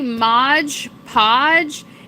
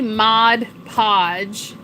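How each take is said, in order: First: The first word ends with a 'j' sound. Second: The first word ends with a 'd' sound. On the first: The speaker calls it wrong. "Some people say" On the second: The speaker calls it right. "It's actually"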